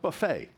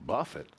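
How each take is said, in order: First: The word ends with an 'ay' sound. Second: The word ends with a short 'et' sound. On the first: The speaker calls it wrong. "not buffet" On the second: The speaker calls it right. "Buffet, not buffet, right? To buffet me, to push me down"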